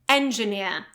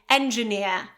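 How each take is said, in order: First: The final R sound is left silent. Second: The same.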